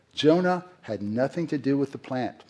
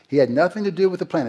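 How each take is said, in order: First: Said in the usual way. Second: "He had nothing to do with the plant" said higher, louder and faster, hitting "do"; preacher hammering the lesson to his congregation, emphatic; emphatic restatement. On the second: Shown as a demonstration. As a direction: drive the point home, punching "do". Preacher repeats point with force.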